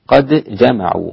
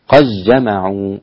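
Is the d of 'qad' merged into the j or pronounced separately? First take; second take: separate; merged. First: The d is pronounced separately with an echoing bounce. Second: The d merges fully into the following j sound. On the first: "بالإظهار قد جمعوا مع القلقلة" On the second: "هكذا بالإدغام"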